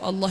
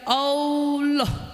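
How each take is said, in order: First: The word is said without any added sound. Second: The word is said with an extra added sound. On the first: The speaker calls it right. "ucap Allah itu begitu" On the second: The speaker calls it wrong. "itu nambahin huruf"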